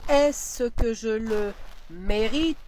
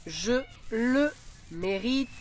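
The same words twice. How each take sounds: First: Slow, every word laid out; slow dictation. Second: Slow, syllable by syllable; slow dictation. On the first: Teacher repeating the dictation, very slowly. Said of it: "dictation repeated". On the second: Teacher dictating to pupils, slowly. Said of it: "dictation read slowly". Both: Shown as a demonstration.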